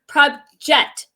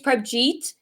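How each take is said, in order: First: The name ends with a short 'jet' sound. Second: The name ends with a long 'jeet' sound. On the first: The speaker calls it wrong. "she used to call her Prabjet" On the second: The speaker calls it right. "Her name's Prabjeet"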